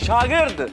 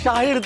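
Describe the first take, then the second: First: The middle consonant is a g sound. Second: The middle consonant is an h sound. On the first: The speaker calls it right. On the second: The speaker calls it wrong.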